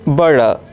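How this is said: It has a soft American d-like t.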